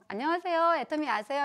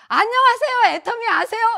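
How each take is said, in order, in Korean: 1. 이 인사는 보통 크기로 말해요. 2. 이 인사는 아주 크게 말해요. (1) "그냥 요즘처럼" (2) "목소리만 커져서"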